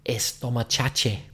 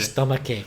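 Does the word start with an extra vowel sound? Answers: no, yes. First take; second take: yes; no. First: An extra e sound comes before the s. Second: The word starts directly with the s sound. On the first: The speaker calls it wrong. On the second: The speaker calls it right.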